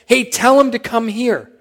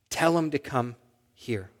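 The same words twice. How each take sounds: First: High-pitched call across a crowd; retold shout. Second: Soft, measured retold command; quiet instruction. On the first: Jesus shouting to people near him to fetch the beggar, retold shout. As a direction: call out to be relayed through the crowd. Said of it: "And Jesus shouts". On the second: Jesus stops and speaks to those near him, quiet instruction. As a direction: say it softly and unhurriedly.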